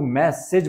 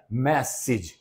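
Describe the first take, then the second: First: मैसेज with an "e" vowel in the second syllable; common mispronunciation. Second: मैसेज with a short "i" in the second syllable; correct pronunciation. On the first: Teacher mimicking how most people say it, मैसेज with "-sej" ending. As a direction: say मैसेज as "mess-edge", with an open ending. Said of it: "संदेश को ज्यादातर लोग मैसेज बोलते हैं". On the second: Teacher modelling the word for students, मैसेज ending in short "-sij". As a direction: say मैसेज as "MESS-ij". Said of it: "इसका सही pronunciation होता है". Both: Shown as a demonstration.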